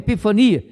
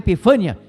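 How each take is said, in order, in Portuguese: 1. A tônica está na quarta sílaba. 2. A tônica está na terceira sílaba. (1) "é epifania" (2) "Não é epifânia"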